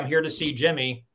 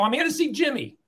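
First: It is said in the speaker's ordinary accent. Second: It is said in a New York accent.

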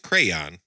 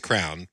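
First: The word is said carefully, with full enunciation. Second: The word is said loosely, without careful enunciation. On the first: The speaker is sober. "when I'm not drinking, I enunciate everything very well" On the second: The speaker has been drinking. "if I'm drinking, it's crown"

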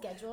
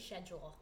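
First: It is said with an American pronunciation. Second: It is said with a British pronunciation. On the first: "Instead of schedule" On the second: "How they say schedule"

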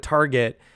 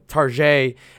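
First: It is said with a plain English accent. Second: It is said with a French accent.

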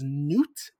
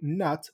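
First: The name rhymes with 'cute'. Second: The name rhymes with 'but'.

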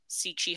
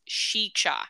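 First: It starts with s and has ch inside. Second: It starts with sh and has ch inside. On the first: "I've always heard it pronounced Sichi Hollow" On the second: "it says it's pronounced Shicha"

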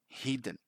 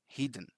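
First: The first vowel sounds like the vowel in 'hit'. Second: The first vowel sounds like the vowel in 'hit'.

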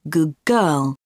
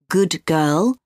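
First: Good ends with a g sound. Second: Good ends with a d sound.

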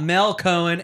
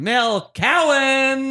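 First: The surname does not start like 'cow'. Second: The surname starts like the word 'cow'. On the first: The speaker calls it wrong. "Have I been saying it wrong forever?" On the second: The speaker calls it right. "let me do that again"

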